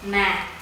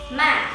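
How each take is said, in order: First: The pitch falls low and gently throughout. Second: The pitch stays flat and level throughout. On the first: It means but. "if you change its hanging tones" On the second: It means ghost. "Examples of level tone is man"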